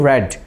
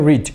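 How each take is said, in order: First: The vowel is short, like 'red'. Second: The vowel is long, like 'reed'. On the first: It is the past tense form. "B two রেড" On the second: It is the present tense form. "B one হচ্ছে রিড"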